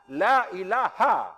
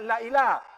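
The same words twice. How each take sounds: First: The vowel in 'la' is drawn out long. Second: The vowel in 'la' is short. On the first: The speaker calls it right. "La itu lebih daripada mat asli itu. Boleh empat harakat itu" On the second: The speaker calls it wrong. "Bukan la ilaha"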